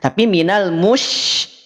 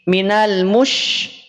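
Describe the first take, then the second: First: The sh is said with relaxed, unrounded lips. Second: The sh is said with rounded, pushed-out lips. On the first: The speaker calls it right. "tidak perlu dimonyongkan, tetapi dia ada di tengah lidah" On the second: The speaker calls it wrong. "Jadi tidak minash, minal mush... Tidak demikian"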